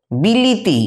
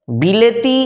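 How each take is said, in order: First: বিলিতি with middle e turned to i; colloquial altered pronunciation. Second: Said in the usual way. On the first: Shown as a demonstration. Teacher showing students the altered form, বিলিতি with middle i. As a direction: say "bi-li-ti", every vowel an i. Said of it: "একটু বিকৃত উচ্চারণ". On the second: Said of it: "বাঁ দিকের উচ্চারণগুলো হচ্ছে শুদ্ধ উচ্চারণ".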